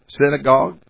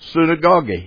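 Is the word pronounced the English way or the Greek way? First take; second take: English; Greek. First: The word is pronounced with English sounds. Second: The word is pronounced with Greek sounds. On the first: "You see any English word in that word" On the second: "I'll pronounce it in Greek sort of"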